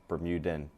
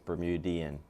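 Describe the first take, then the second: First: The word has three syllables, ending in '-dan'. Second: The word has four syllables, ending in '-dian'. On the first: The speaker calls it wrong. "A lot of English people say Bermudan" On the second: The speaker calls it right. "but it's Bermudian"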